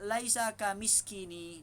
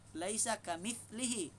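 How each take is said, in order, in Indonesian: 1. Bagian tengahnya terdengar seperti 'sk' diikuti 'ini'. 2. Bagian tengahnya berbunyi 'th' diikuti 'lihi'. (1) "Dia kata laisa kamiskini" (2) "Bukan kamiskini. Laisa kamitslihi"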